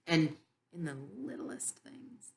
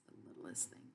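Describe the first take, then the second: First: Soft breathy whisper. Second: Barely audible whispered echo; fading whisper. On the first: Whispering to the listeners about God's littlest gifts. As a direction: drop to an intimate whisper. Hushed emphasis on small gifts. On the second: Echoing the littlest things to her audience, nearly silent. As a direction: let the repeat die away to almost nothing. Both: Real, not acted.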